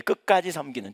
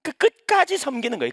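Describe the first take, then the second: First: Said in the usual way. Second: 끝까지 said high and loud; 끝까지 raised high and punched; stress on 끝까지. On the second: Shown as a demonstration. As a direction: lean hard on 끝까지.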